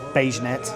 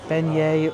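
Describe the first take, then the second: First: The word is said as beige-net. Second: The word is said as beignet. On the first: The speaker calls it wrong. "I've heard people say Beigenet" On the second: The speaker calls it right. "it also helps if you know how to pronounce it"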